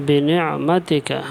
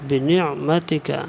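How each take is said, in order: Both takes have the same delivery.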